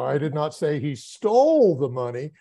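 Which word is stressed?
stole. The stress is on the word stole.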